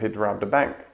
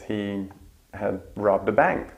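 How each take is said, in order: First: The word had is shortened to a d. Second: The word had is said in full.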